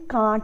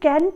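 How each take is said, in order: First: It is said with a British vowel. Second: It is said with an American vowel.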